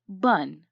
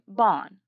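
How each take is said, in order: First: The vowel is reduced to a schwa sound. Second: The vowel is a full short o sound. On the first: This is how the word sounds in running speech. "the second syllable is pronounced as bun" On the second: This is how the spelling suggests it should be read. "they would expect the two syllables in this word to read as rib and then"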